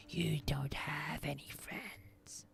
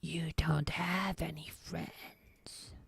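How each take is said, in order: First: Slow, creepy creature whisper; Gollum whisper. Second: Slow, creepy whispered taunt like Gollum to Smeagol. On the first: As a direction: taunt it slowly under your breath like a creature. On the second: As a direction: hiss it slowly like a creature talking to itself. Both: Retold or imitated. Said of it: "like Gollum when he's talking to Smeagol".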